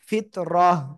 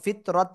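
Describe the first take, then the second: First: The word ends with a silent h sound. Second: The word ends with a t sound. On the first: The speaker calls it right. "হা হয়ে যাবে এবং সাকিন হবে" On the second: The speaker calls it wrong. "ফিত রত হবে না কিন্তু"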